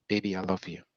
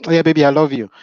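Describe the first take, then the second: First: Put-on soft, quiet, tender "Baby, I love you"; sincere love words. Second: Put-on louder, higher, tossed-off "Oh yeah, baby, I love you"; careless, offhand. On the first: Shown as a demonstration. Husband telling his wife he loves her, soft and sincere. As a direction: murmur it gently, meaning every word. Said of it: "And then say it like you mean it". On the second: Husband answering wife from the TV, dismissive and offhand. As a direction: brush it off without looking away from the screen. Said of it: "you're watching the T V".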